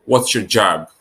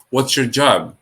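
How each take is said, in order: Both takes have the same delivery.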